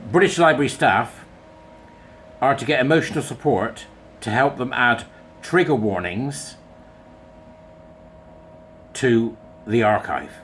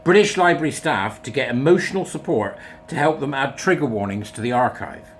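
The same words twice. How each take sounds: First: First go, broken up by long pauses; halting first read. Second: Said in the usual way. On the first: Shown as a demonstration. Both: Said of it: "I'm gonna read it again just so that you can get it in your head".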